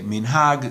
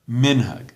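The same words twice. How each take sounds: First: The stress is on the last syllable. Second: The stress is on the first syllable. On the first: This is the modern Israeli pronunciation. "emphasis on the last syllable" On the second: "on the second last, um, second last syllable"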